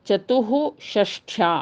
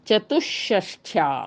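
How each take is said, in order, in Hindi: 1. शब्द सांस वाली h ध्वनि पर खत्म होता है। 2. h की जगह दोहरी sh ध्वनि आती है।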